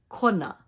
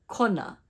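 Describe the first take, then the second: No difference in how they are said.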